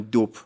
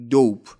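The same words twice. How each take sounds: First: دوپ with a short clipped vowel, not English dope; the mistaken short دوپ; wrong short vowel. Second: A long, stretched o in دوپ; long o in dope. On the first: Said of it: "نگفتم دوپ". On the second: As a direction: pronounce دوپ stretched and firm. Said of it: "دقت کنید". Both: Shown as a demonstration.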